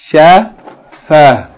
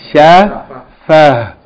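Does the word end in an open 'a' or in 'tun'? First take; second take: a; a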